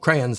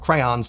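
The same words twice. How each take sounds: First: The word is said in a shortened form. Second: The word is said in its fuller form. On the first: "to crayons" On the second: "shortening words like crayons"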